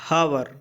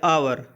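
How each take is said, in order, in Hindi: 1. शब्द की शुरुआत में साफ़ h ध्वनि है। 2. शब्द सीधे स्वर ध्वनि से शुरू होता है।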